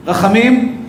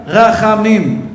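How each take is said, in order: First: Said in the usual way. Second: רחמים drawn out very slowly and weighted; stressed word. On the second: Shown as a demonstration. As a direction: stretch out רחמים, slow and heavy. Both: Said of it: "מילה אחת".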